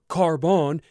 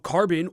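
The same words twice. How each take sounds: First: The word is said with a French accent. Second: The word is said with an English accent.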